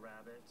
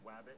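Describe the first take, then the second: First: The word starts with an R sound. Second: The word starts with a W sound. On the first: This is the standard adult form. "instead of rabbit" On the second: This is how a young child says it. "She said wabbit"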